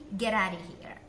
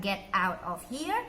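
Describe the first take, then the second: First: The words run together like one word. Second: The four words are said separately. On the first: The speaker calls it right. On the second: The speaker calls it wrong.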